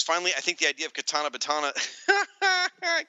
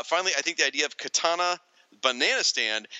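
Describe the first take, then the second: First: Quick read breaking into laughter; cracking up. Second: Said in the usual way. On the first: Real, not acted. Podcast host reading a listener comment, cracking up. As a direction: rush the line and lose it laughing. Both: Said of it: "can't ever say it without laughing".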